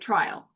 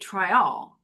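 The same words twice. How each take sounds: First: The word is said with an American pronunciation. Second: The word is said with a Jamaican pronunciation. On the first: "Americans say trial" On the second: "locally they say trial"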